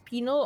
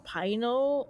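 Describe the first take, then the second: First: The first syllable sounds like pin. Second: The first syllable sounds like pine.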